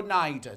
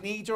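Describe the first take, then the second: First: "Nieder" said as NYE-der; NYE pronunciation. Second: "Nieder" said as NEE-der; long EE in the first "Nieder"; NEE pronunciation. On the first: Presenter offering the alternative, "Nieder" as NYE-der. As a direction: EYE vowel in the second "Nieder". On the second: Presenter asking which is correct, "Nieder" as NEE-der. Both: Shown as a demonstration. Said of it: "Is it Nieder or Nieder".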